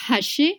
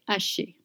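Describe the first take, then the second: First: The h at the start is pronounced. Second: The h at the start is silent. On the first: The speaker calls it wrong. "you don't say haché" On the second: The speaker calls it right. "you just say haché"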